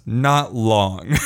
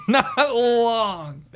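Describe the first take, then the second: First: Said in the usual way. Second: High, drawn-out laughing repeat; high pitch, laughter running into the words. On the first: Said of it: "she goes". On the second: Real, not acted. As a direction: crack up while repeating the punchline.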